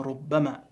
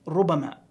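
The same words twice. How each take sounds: First: "ربما" as rubbamā, doubled b; misreading. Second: "ربما" as rubamā, single b; correct reading. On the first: Teacher imitating a mistake, "ربما" with doubled b. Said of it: "بعضهم يقرأها". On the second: Teacher showing correct word, "ربما" with single b. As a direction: keep the b light in "ربما", undoubled. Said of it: "ربما يود الذين كفروا". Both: Shown as a demonstration.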